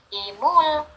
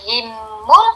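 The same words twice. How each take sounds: First: The middle consonant is short, not doubled. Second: The middle consonant is held long, doubled. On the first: The speaker calls it right. "tapi himul" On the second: The speaker calls it wrong. "bukan himul"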